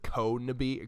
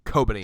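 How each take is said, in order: First: The second consonant is an N sound. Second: The second consonant is a B sound. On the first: The speaker calls it wrong. "I always said Konebi" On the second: The speaker calls it right. "Got it"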